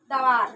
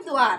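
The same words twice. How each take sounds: First: दवार with a full द and a separate व, da-vaar; दवार, the wrong unjoined way; wrong reading. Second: द्वार with half द joined to वा, dvaar; द्वार, the correct joined sound; right reading. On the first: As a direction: read दवार as two open syllables. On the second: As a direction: say द्वार as one cluster. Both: Shown as a demonstration. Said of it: "लेकिन हमें क्या लिखना है?".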